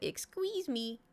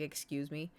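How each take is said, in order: First: It is said in a silly Jar Jar voice. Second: It is said in her normal voice.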